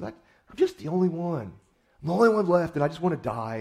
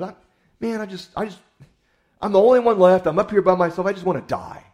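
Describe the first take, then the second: First: Mope it out, half-hearted; understated self-pitying moan; mild self-pity. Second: High, loud anguished wail of self-pity; loud, high self-pitying lament; whiny despair. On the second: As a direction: cry out like a prophet who's given up. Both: Retold or imitated. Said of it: "feeling sorry for himself".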